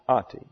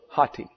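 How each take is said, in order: First: The word starts directly with a vowel. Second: The word starts with a breathy h sound. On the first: The speaker calls it wrong. "that would be O-T-I" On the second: The speaker calls it right. "hati is the correct pronunciation"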